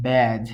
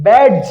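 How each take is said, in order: First: ব্যাজ with no D sound, low and soft; correct pronunciation. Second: ব্যাডজ with the D clearly sounded; spelled-out pronunciation. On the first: Teacher gives learners the real pronunciation, silent D in ব্যাজ. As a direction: say ব্যাজ slowly, dropping the D before the j. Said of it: "কিন্তু কি উচ্চারণ হয়?". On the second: Teacher shows learners the expected reading, D sounded in ব্যাডজ. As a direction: say ব্যাডজ loudly, voicing the D before the j. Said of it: "ব্যাডজ উচ্চারিত হওয়ার কথা". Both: Shown as a demonstration.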